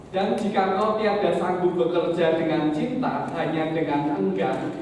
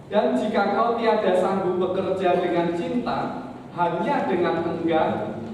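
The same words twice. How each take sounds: No difference in how they are said.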